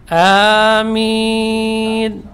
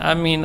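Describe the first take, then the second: First: Both vowels are drawn out long. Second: The first vowel is short, the second long. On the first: It asks that the prayer be granted. The speaker calls it right. "jadi panjang" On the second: It means safe. The speaker calls it wrong. "artinya aman"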